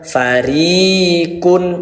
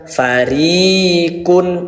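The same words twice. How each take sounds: First: The vowel after the r is held long. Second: The vowel after the r is held long.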